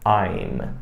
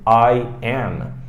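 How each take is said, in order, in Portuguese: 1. Uma sílaba contraída termina com os lábios fechados. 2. Duas palavras completas e separadas são ditas. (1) "eu vou dizer I'm. E veja que a minha boca também fecha" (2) "ao invés da gente dizer I am"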